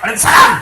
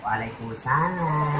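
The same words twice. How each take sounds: First: It is said in a firm, blunt voice. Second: It is said in a soft, sultry voice.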